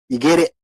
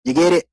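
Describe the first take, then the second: First: Said in the usual way. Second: Teasing rising ask. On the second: Shown as a demonstration. Repeated teasing question.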